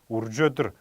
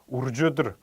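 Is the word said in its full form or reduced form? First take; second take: reduced; reduced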